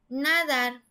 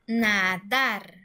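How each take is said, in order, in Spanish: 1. El acento está en la primera sílaba. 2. El acento está en la última sílaba. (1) "Si estuviera la sílaba tónica en la penúltima sílaba, diría nadar" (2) "la sílaba tónica está en la última sílaba"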